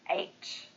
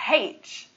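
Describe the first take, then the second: First: The letter name begins without an h sound. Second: The letter name begins with an h sound. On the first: The speaker calls it right. "It should just be H" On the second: The speaker calls it wrong. "the letter H makes a H sound, so it makes sense that it would be pronounced H"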